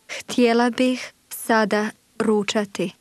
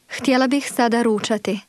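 First: It is said slowly and carefully. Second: It is said fast, at conversational speed.

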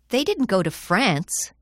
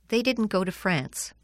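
First: France gets extra stress. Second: The sentence has normal, even stress.

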